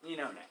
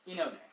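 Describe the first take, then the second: First: The name begins with an 'eh' sound. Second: The same.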